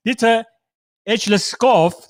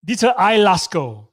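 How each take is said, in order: First: "Edleskov" guessed, with Ed- opening and sounded -kov; mispronounced name. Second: "Eilerskov" as eye-las-ko, final v silent; corrected name pronunciation. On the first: Real, not acted. Host introducing Danish artist, mispronouncing "Edleskov" as Ed-les-kov. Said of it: "correct my mispronunciation of your name". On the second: Shown as a demonstration. Host repeating artist's name back, "Eilerskov" corrected to eye-las-ko. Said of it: "help correct my mispronunciation".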